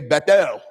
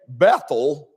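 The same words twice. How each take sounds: First: The stress is on the last syllable. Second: The stress is on the first syllable. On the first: This is how Hebrew speakers say it. "they'll emphasize the last part" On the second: This is how English speakers say it. "We say Bethel"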